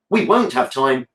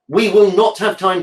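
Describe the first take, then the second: First: 'Will not' is contracted to 'won't'. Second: 'Will not' is said as two full words. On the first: The speaker calls it right. "Just sounds fine" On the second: The speaker calls it wrong. "Just doesn't sound right. It sounds unnatural"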